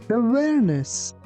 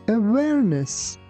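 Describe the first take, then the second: Both takes have the same delivery.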